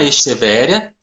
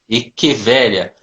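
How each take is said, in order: First: The 'ch' is pronounced like 'sh'. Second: The 'ch' is pronounced like 'k'. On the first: It is the everyday common name of the plant. "palavra portuguesa com som de chi" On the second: It is the scientific genus name in a professional context. "sempre com pronúncia de K"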